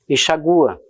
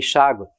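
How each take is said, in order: First: The stress falls on the u of -gua. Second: The stress falls on the a before -gua. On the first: "era muito comum também na língua portuguesa" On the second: "conservavam a sílaba tônica da palavra água"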